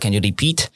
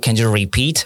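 First: It is said with a Japanese accent. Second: It is said without a Japanese accent. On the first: This is how it actually came out. The speaker calls it wrong. "因为他的那个日文口音哦，以及日文腔会变成这个repeat" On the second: This is what was intended. The speaker calls it right. "他要讲是Can you repeat"

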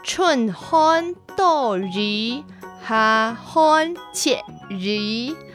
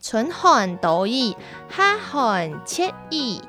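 First: It is said in the Hailu Hakka accent. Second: It is said in a non-Hailu Hakka accent.

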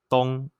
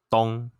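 First: The pitch is high and level. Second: The pitch is mid and level.

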